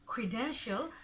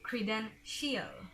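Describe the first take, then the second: First: The ending is one short 'shul' syllable. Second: The ending is two syllables, like 'shee-al'. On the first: The speaker calls it right. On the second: The speaker calls it wrong.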